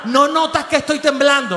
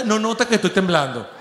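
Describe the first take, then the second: First: Sung, belting the lyric. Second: Mock doubtful reading. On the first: Retold or imitated. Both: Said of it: "¿Quién coño canta ahorita?".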